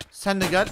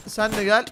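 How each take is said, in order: Both takes have the same delivery.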